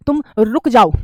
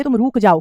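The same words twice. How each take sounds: First: रुक with a short, tight 'u'; correct pronunciation. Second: रुक with long 'oo', "rook"; wrong pronunciation. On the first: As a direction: pause on a crisp "RUK" in रुक जाओ. (रुक में छोटा 'उ') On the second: (रुक को 'रूक' बोलना) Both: Shown as a demonstration. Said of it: "हम ये नहीं कहते".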